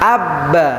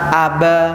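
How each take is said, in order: First: The b is doubled and held for two beats. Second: The b is single and passed over quickly. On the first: The speaker calls it right. "Ketika tasdid ada dua ketukan cara membacanya" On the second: The speaker calls it wrong. "Kalau misalkan tidak seperti ini, biasanya hanya dimasukkan aja"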